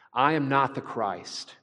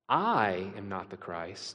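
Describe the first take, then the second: First: The stress falls on the word not. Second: The stress falls on the word I. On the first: He simply denies being the Christ. "The difference between these two ways of saying it" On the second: He implies that someone else is the Christ. "He puts the emphasis on the I"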